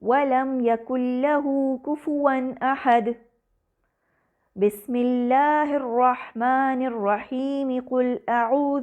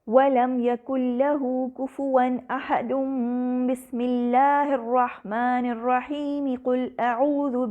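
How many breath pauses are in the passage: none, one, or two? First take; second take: one; none. First: One pause comes before the basmala, then it flows on. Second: Everything runs together in one breath without pauses. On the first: The basmala is joined to the next chapter only. "रुककर सांस लेता है, फिर बसमला और अगली सूरत की पहली आयत मिलाकर पढ़ता है" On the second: All three parts are joined together. "तीनों को एक साथ मिलाकर पढ़ा गया"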